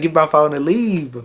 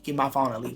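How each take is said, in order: First: Loud, high yell to leave; loud mock yell to go; retold yell. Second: Said in the usual way. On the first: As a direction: bark it out, fed up. Retold demand, laughing, shouted.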